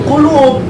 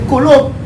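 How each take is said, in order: The two takes are said the same way.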